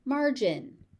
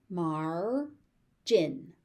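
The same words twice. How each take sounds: First: Said in the usual way. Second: "Margin" as mar, pause, jin; syllable by syllable. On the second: Shown as a demonstration. Teacher sounding out "Margin" for learners, syllable by syllable. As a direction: split "Margin" into two beats.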